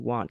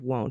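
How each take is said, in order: First: The word rhymes with 'want', with an ah vowel. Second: The word rhymes with 'won't', with an oh vowel. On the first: "I pronounce W O N T, want" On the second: "instead of won't"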